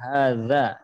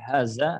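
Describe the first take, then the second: First: The middle consonant is a voiced 'th' sound. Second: The middle consonant is a plain 'z' sound. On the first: The speaker calls it right. "Maka perlu diperbaiki cara membaca huruf zal ya" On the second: The speaker calls it wrong. "Jangan sampai ya seperti zai"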